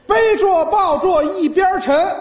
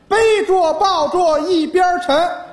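Both takes have the same delivery.

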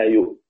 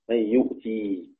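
First: The word ends in a bare, vowelless t. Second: The word ends in a long ee vowel. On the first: This is the pause form for the other reciters. "والوقف عليها بتاء ساكنة" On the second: This is the pause form for one particular reciter. "ويقف عليها بإثبات ياء"

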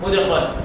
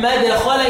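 First: The first vowel is a rounded 'u' sound. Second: The first vowel is an open 'a' sound. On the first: This is the reading of the remaining reciters. "والباقي مدخلا" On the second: This is the reading of a single reciter. "مين؟ نافع"

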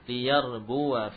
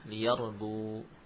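First: The word ends with a 'wa' sound. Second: The word stops short on 'bu'. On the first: The word is joined to the next word. "Kalau wasal" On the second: The reader pauses after the word. "Kalau waqaf"

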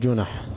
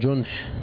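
First: The word is said as two open syllables. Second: The word is said as one closed syllable. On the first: It means minor criminal offenses. The speaker calls it wrong. "مش جنح، فين الجنح دي؟ أيوة الجنايات والجنح" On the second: It means the cover of darkness. The speaker calls it right. "هي جنح"

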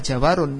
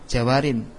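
First: The word ends with an -un sound. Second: The word ends with an -in sound. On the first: The speaker calls it wrong. "bukan dibaca jawarun" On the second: The speaker calls it right. "namun dibaca jawarin"

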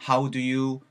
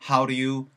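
No difference in how they are said.

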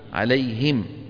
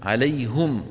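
First: The h is followed by an i vowel. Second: The h is followed by a u vowel. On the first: Those Arabs did not use this form. "ولا يقولون عليهم" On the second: Some Arabs kept the original form. "بعض العرب شو كانوا يقولون؟ عليهم"

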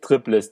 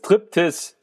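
First: The second syllable begins with an L sound. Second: The second syllable begins with a T sound. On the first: The speaker calls it wrong. "Nicht Triplis" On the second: The speaker calls it right.

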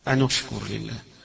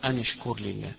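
First: The final n links with a u vowel. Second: The final n links with an i vowel. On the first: This is the other accepted reading of the verse. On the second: This is one accepted reading of the verse.

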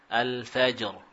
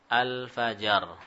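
First: Only a short bounce separates j and r. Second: A full vowel is sounded between j and r. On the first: The speaker calls it right. "itu yang kita baca" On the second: The speaker calls it wrong. "Cuma sekarang bukan itu tentunya"

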